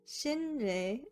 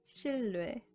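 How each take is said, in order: First: The middle consonant is pronounced as an n. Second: The middle consonant is pronounced as an l.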